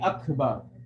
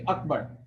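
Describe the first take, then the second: First: The k is released with a puff of breath. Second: The k is held without a breath release. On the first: This is how it is said in Arabic recitation. "They're not gonna say Akbar" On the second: This is how it is said in Urdu. "they're gonna say Akbar"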